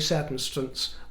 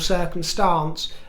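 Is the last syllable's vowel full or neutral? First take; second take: neutral; full. First: The last syllable has a neutral vowel. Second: The last syllable has a full vowel. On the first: "with a neutral vowel" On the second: "Most will say circumstance"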